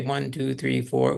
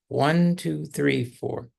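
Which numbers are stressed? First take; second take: all equally; one, three. First: All four numbers are stressed evenly. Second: The numbers one and three are stressed.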